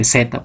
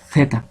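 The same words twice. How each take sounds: First: It is a hissing sound without tongue between teeth. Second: The tongue tip goes between the teeth. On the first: This is how it is said here. "Acá es simplemente Z, pues es con silbante" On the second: This is how it is said in Spain. "El ápice de la lengua empuja entre los dientes"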